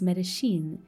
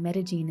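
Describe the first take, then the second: First: The double L is said with a sh sound. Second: The double L is said the local Paisa way. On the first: "in Argentina and Uruguay, the double L takes a sh sound instead" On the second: "in la manera muy paisa paisa"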